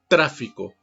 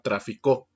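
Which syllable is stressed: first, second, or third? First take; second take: first; third. First: The stress is on the first syllable. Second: The stress is on the third syllable. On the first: It is the noun for heavy traffic. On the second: It is the past verb meaning he traded.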